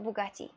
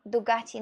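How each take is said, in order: First: Bugatti with an opening B sound; rejected name. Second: Dugatti with an opening D sound; corrected name. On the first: Streamer ruling out the French make, Bugatti with a B. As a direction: say Bugatti starting on B, not D. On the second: Streamer correcting the motorcycle name, Dugatti with a D. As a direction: say Dugatti starting on D, not B. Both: Shown as a demonstration. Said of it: "not Bugatti".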